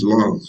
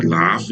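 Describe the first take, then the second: First: "laugh" said with a long open ah, like "lahf"; right pronunciation. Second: "laugh" said with a flat short a, like "laff"; wrong pronunciation. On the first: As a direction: open "laugh" into a broad back vowel. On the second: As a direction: give "laugh" the front vowel of "cat" with a clear f. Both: Shown as a demonstration. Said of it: "It's not laugh, it's laugh".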